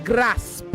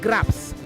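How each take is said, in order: First: The p sound comes before the s. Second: The p sound comes before the s.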